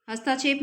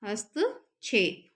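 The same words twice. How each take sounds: First: हस्ताक्षेप with long "taa"; mispronounced HASTAKSHEP. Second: हस्तक्षेप slowly split, "hast, chhep"; no long a after त in हस्तक्षेप, pause there; correct HAST-KSHEP. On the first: Teacher showing the mistake, हस्ताक्षेप with long "taa". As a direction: stretch the a after त in हस्ताक्षेप. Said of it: "हस्ताक्षेप नहीं होता है". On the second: Teacher dictating the correct form, हस्तक्षेप slow in two parts. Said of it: "क्या होता है इसका शुद्ध रूप". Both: Shown as a demonstration.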